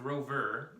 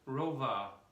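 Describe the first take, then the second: First: The word ends with an R sound. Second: The word ends in an open uh sound. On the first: The speaker calls it wrong. "instead of rover" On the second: The speaker calls it right.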